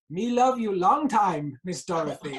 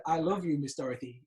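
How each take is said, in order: First: Slow, loud, lightly put-on Chinese accent in broken English; cheeky slow Chinese accent, louder, playing to the cast; mock Chinese accent. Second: Said in the usual way. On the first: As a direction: ham up a mild Chinese accent and stretch "love" slowly. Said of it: "in this broken English, in a Chinese accent". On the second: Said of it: "The line is supposed to be".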